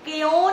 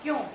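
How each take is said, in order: First: The k is said with a full vowel. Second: The k is joined directly to the y. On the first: The speaker calls it wrong. "क्यों नहीं होता" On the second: The speaker calls it right. "आधे क की आवाज आ रही, पूरे की नहीं"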